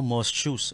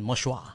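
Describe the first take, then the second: First: It is read out letter by letter, English-style. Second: It is pronounced the French way, ending in -shua. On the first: "'Pag binasa mo" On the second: "'pag Pranses ka pala ang pronunciation"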